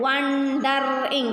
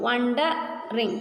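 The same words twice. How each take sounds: First: "wondering" stretched with the break before the final "ing"; "wondering" drawn out as won-darr-ing; wrongly divided syllables. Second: "Wondering" slowly as wonde, pause, ring; teacher's slow, corrected split of "Wondering"; two-part syllable split. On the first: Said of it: "You can't divide as". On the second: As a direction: break "Wondering" with a clear pause before "ring". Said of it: "These are two syllables". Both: Shown as a demonstration.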